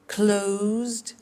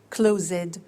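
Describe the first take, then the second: First: The ending is a plain D sound. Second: The ending is an extra syllable. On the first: The speaker calls it right. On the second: The speaker calls it wrong.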